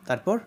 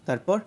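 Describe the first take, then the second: Both takes have the same delivery.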